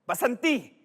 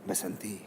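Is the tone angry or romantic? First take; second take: angry; romantic. First: It is said in an angry tone. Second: It is said in a romantic tone.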